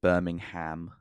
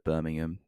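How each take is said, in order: First: Imitating Vince McMahon saying Birmingham the American way, every letter sounded, ending in ham. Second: Birmingham said the British way, Birming-um, with a light unstressed ending. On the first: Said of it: "he calls it Birmingham instead of". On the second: Shown as a demonstration. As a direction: say Birmingham like a local, ending in a soft um. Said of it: "instead of Birmingham".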